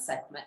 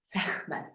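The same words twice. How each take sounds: First: The middle consonant is a plain, soft k sound. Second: The middle consonant is a rough guttural throat sound. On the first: The speaker calls it wrong. "It's not Sekhmet" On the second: The speaker calls it right. "the proper way, I believe, is the, you know, the, the guttural het"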